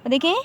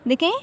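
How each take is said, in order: No difference in how they are said.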